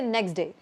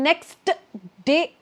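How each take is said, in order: First: The T before day is dropped. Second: The T before day is clearly pronounced. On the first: "we can just say next day ... Take away the T" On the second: "instead of saying next day"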